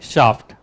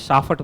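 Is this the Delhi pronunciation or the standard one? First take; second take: standard; Delhi. First: It is said the standard, intended way. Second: It is said the way people in Delhi say it. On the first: The speaker calls it right. "होना क्या चाहिए? शाफ्ट।" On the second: The speaker calls it wrong. "यहाँ दिल्ली में शाफट बोलता है उसको सब"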